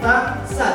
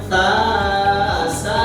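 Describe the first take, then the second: First: Each syllable is short, one beat. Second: Each syllable is drawn out long. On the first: The speaker calls it right. "satu ketukan saja. Kita contohkan ta sa itu aja" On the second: The speaker calls it wrong. "jangan ta sa, didiam aja itu keliru"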